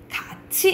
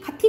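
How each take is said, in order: First: The second syllable starts with a 'ch' sound. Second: The second syllable starts with a 't' sound. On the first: The speaker calls it right. "자연스럽게 돼. 같이 이렇게 되죠" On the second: The speaker calls it wrong. "가티 가티 가자 이상하잖아"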